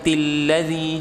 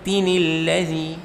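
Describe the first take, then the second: First: No nun sound comes before 'ladzi'. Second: A linking 'nil' sound joins into 'ladzi'. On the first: The speaker calls it wrong. "Jadi bukan" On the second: The speaker calls it right. "nun yang harus dibaca kasroh ketika ada tanwin"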